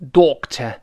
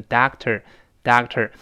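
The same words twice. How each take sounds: First: British "doctor", rounded o and no r; British pronunciation. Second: American "doctor", ah vowel and final r; American pronunciation. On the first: Teacher contrasts two accents, British pronunciation. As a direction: say "doctor" British-style, tongue uncurled. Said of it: "英式发音读成". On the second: Teacher contrasts two accents, American pronunciation. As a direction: say "doctor" American-style, curling the tongue. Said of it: "美式呢，前面o变成啊". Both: Shown as a demonstration.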